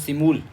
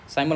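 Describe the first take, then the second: First: The first vowel sounds like 'ee'. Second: The first vowel sounds like 'eye'. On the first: The speaker calls it right. "इसको बोलो सिमूल" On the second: The speaker calls it wrong. "साइमल मत बोलो"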